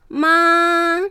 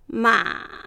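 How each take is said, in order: First: The pitch stays high and level throughout. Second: The pitch is held down low throughout. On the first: "第一声、高い音をそのまま平らに伸ばして発音する。" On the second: "第三声、低く抑える"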